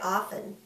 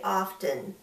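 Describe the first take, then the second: First: The T sound in the middle is silent. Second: The T sound in the middle is clearly pronounced. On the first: This is the usual everyday pronunciation. "It's usually silent. We usually say often" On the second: This makes the word easier for listeners to hear. "a lot of us who like good diction will say often so that people can hear the word better"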